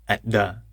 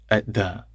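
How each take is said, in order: No difference in how they are said.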